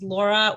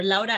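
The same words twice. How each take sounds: First: Said in the usual way. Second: "Laura" said the other of her two ways, as in Spanish; other pronunciation. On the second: Shown as a demonstration. Speaker introducing herself to the group, "Laura" pronounced the Spanish way. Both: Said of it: "I say it both ways".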